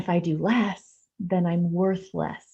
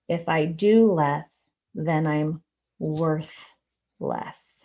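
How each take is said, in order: First: The phrase is said at a normal pace. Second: The phrase is said at a slower pace.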